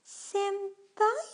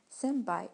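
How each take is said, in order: First: High, loud, drawn-out questioning "Senpai?"; Sakura. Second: Said in the usual way. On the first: Retold or imitated. Vlogger imitates how Sakura from Fate pronounced Senpai, high-pitched impression. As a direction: put on a much higher voice, lift the end like a question. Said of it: "as Sakura pronounced it". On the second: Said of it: "or as Sakura pronounced it".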